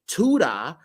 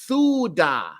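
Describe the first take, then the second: First: The word begins with a plain T sound. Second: The word begins with a TH sound. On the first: The speaker calls it wrong. "I don't say Tuda" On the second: The speaker calls it right. "I say Thuda"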